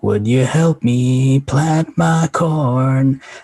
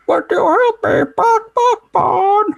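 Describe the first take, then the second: First: It is said in a clear, understandable voice. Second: It is said in a clucking, squawking hen voice.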